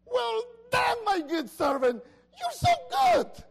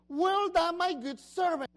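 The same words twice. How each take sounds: First: Shouted high and loud with joy; excited exclamation. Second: Said in the usual way. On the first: Shown as a demonstration. Pastor shows the master praising his servant, excited shout. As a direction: burst out with delight, stretching the praise. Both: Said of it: "And that's an exclamation".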